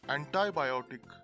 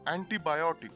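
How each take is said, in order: First: The prefix is said the American way. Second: The prefix is said the British way. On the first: "these words are pronounced in American format as" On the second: "The British enunciate these as anti and multi"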